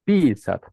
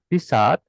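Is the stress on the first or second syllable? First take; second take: first; second. First: The stress is on the first syllable. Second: The stress is on the second syllable. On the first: It means to urinate. "bentuk yang buang air kecil artinya pisat. Tekanan di mana? ... i, betul" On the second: It means to write. "Kalau tekanannya di a, pisat ya artinya menulis"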